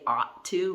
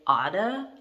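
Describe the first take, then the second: First: Both words are said fully, with a clear 'to'. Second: The words blend, with 'to' reduced to 'da'. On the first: The speaker calls it wrong. "we don't even say ought to" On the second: The speaker calls it right. "we say oughta"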